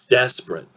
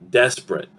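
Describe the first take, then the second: First: It is said quickly with two syllables. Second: It is said quickly with two syllables.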